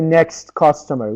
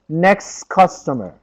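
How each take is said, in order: First: The t at the end of 'next' is pronounced. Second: The t at the end of 'next' is dropped. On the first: The speaker calls it wrong. "We do not say next customer" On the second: The speaker calls it right. "We say next customer"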